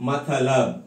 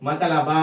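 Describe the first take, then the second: First: మతలబ్ ending on a bare b; మతలబ్ with the final a clipped; Hindi final schwa dropped. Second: మతలబ with the final a sounded; మతలబ read with a full final a; wrong full-vowel ending. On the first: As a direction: say మతలబ్ as ma-ta-lab. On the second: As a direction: say మతలబ as ma-ta-la-ba, keeping the last vowel. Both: Shown as a demonstration. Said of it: "మతలబ అనకూడదు".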